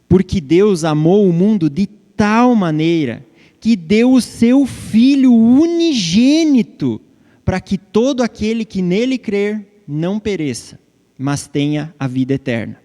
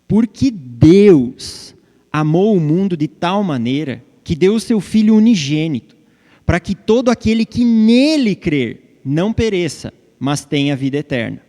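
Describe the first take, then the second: First: The emphasis falls on his only begotten Son. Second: The emphasis falls on God and believing in him.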